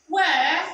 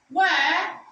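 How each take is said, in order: The two takes are said the same way.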